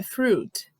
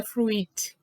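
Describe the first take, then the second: First: "fruit" as one syllable, froot; silent i. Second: "fruit" with the i sounded, froo-it; wrong pronunciation. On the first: Teacher models correct "fruit" for learners, froot with silent i. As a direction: say "fruit" with a long oo and no i. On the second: Teacher warns learners off sounding the i, "fruit" as froo-it. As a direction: split "fruit" into two vowels, froo-eet. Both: Shown as a demonstration. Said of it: "não pronuncia o i".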